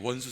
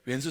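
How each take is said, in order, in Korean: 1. 첫 음절은 평범한 'won' 모음으로 발음합니다. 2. 첫 음절은 'woen' 모음으로 발음합니다. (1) "원수라고 하면 안 돼요" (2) "왼수라 그래야 돼요"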